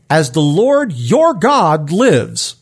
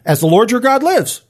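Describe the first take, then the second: First: Slow, weighty stress on "your"; throwing down. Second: Higher-pitched, quicker challenge; challenging. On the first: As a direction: lean hard on "your", spacing out the words slowly. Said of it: "he's throwing down on Elijah". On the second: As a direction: throw it out as a pointed dare. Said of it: "it is a bit of a challenge". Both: Acted.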